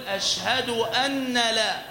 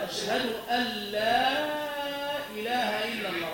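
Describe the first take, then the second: First: أن with a stressed doubled nun, slow; wrong doubled nun. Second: أن merged into لا as one doubled lam; correct merged nun. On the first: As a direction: lean hard on the nun in أن. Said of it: "بتشديد النون فيقول". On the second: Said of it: "فالصواب". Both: Shown as a demonstration.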